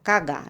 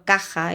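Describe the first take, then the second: First: The middle consonant is a hard G sound. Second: The middle consonant is the harsh Spanish J.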